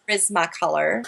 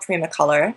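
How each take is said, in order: First: The 's' sound in the name is pronounced. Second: The 's' sound in the name is dropped. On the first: It is the brand's actual name. "it's actually Prismacolor" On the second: It reflects the speaker's French roots. "I call them Primacolor because that's my French roots"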